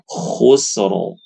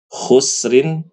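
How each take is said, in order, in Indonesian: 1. Kata itu berakhir pada huruf r yang tebal tanpa vokal. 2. Kata itu berakhir dengan bunyi -in yang ditambahkan. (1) "disukunkan ya karena memang karena waqaf ya. Jadi langsung baca khusru tebal" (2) "harusnya dibaca khusrin"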